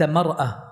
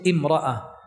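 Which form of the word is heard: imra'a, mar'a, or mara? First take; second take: mar'a; imra'a. First: It starts with ma and keeps the glottal stop. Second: It starts with an i-vowel and keeps the glottal stop. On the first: "فتحت الساكنة" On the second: "إذا أتيت بهمزة الوصل"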